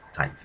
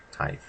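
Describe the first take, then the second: First: Said in the usual way. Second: "Tithe" said with a short i, like "tih"; short vowel tithe. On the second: Shown as a demonstration.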